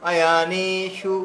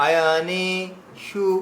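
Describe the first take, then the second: First: Said in the usual way. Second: আয়নেষু said slowly, vowels stretched; slow drawn-out demo. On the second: Shown as a demonstration. Teacher slowly modeling আয়নেষু for the class, drawn out. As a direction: draw out আয়নেষু syllable by syllable. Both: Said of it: "তাহলে আয়নে".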